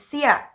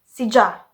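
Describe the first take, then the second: First: The middle consonant is a Y sound. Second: The middle consonant is a J sound. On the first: This is the common pronunciation. "The common one is siya" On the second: Some people in some regions say it this way. "they replace Y with letter J and they pronounce it as sija"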